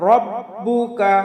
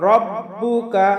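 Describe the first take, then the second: The two takes are said the same way.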